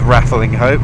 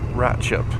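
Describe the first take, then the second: First: The name is said in full, as spelled. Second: The name is shortened to two syllables. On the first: This is how an outsider would say it. The speaker calls it wrong. "I've always pronounced it as Rattling Hope" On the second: This is how locals say it. The speaker calls it right. "apparently it is Ratchup"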